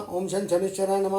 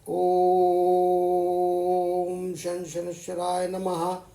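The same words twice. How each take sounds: First: It is said quickly and hurriedly. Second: It is said slowly and calmly.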